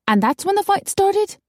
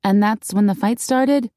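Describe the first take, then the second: First: Very high, aghast question; scandalized question. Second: Said in the usual way. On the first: A narrator's reading. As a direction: ask it aghast, voice lifted right up. Shocked listener asks, hand to chest.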